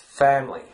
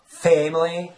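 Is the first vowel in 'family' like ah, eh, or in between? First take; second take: in between; eh. First: The first vowel falls between ah and eh. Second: The first vowel is a narrow eh sound. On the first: The speaker calls it right. "something in between. The ah and eh" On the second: The speaker calls it wrong. "That that would remind me of the southern accent"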